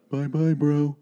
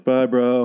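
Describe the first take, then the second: First: Light, slightly higher mock farewell; a lightly voiced movie-villain goodbye; a hint of a cocky villain waving off; Pollux Troy pinky goodbye. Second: Said in the usual way. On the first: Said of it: "Like Pollux Troy does". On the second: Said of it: "And then Carl's like".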